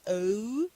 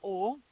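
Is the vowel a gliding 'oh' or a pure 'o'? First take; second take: gliding oh; pure o. First: The vowel glides in a British style. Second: The vowel is a pure, steady 'o'. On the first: The speaker calls it wrong. "It's not O like some British uh, some British usually, usually say" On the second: The speaker calls it right. "Is O like uh, in the name uh, Omar"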